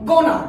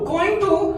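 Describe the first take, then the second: First: It is squeezed into one short reduced word. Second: It is said as two full, separate words.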